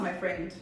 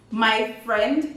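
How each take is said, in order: First: Said in the usual way. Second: "My friend" said louder with a sharp rise on friend; sharp rising my friend. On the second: Shown as a demonstration. Showing viewers the right way to say it, rising sharply. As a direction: snap "My friend" up at the end, demanding. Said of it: "And it said like this".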